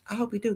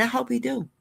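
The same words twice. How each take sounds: First: Quiet echo. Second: Said in the usual way. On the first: Shown as a demonstration.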